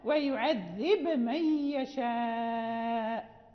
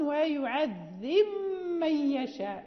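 First: The b is released clearly before the m. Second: The b merges into a doubled m sound. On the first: "نقلقل الباء" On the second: "نضغم في الباء في الميم، فننطق بميم مشددة"

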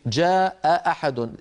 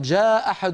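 First: Both glottal stops are fully pronounced. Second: Only one glottal stop is pronounced. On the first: "التقى همزتان" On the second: "فاكتفوا بهمزة"

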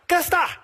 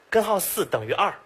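First: Most syllables are swallowed into a short mumble. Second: Every syllable is clearly pronounced. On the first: "吃字最严重的" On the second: "他说的是"

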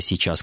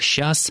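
First: All syllables of the word are pronounced. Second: Part of the word is dropped. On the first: The speaker calls it right. "слова «сейчас»" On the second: The speaker calls it wrong. "распространившейся сейчас произносительной форме, хотя и не норме"

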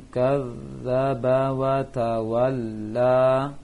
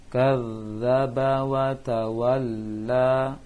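The two takes are said the same way.

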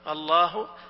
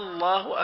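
First: The first vowel is drawn out like a question. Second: The first vowel is short and plain. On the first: It turns the word into a question. The speaker calls it wrong. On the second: It is a plain statement of the name. The speaker calls it right.

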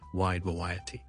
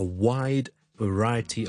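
First: Both words start with a W sound. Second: The first word starts with W, the second with V. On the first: The speaker calls it wrong. "都读成我哋广东话有嘅W sound 就变咗wide variety" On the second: The speaker calls it right. "我哋第一个系W wide，第二个系V sound"

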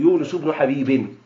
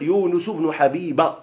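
First: The last word ends with an added n sound. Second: The last word ends without an added n sound. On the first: The name is treated as fully declinable. The speaker calls it wrong. "ولا تقل يونس بن حبيب" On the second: The name is treated as feminine, so it takes no nunation. The speaker calls it right. "فقل يونس بن حبيب"

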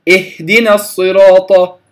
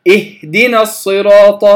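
No difference in how they are said.

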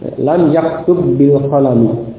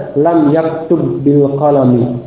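No difference in how they are said.

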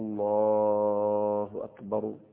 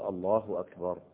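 First: The final r carries an added vowel. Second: Normal length, ending on a silent r. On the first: The speaker calls it wrong. "ولا أيضا تحرك حرف الراء بأي حركة" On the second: The speaker calls it right. "لأنك تقف فتسكت فتقول الله أكبر"

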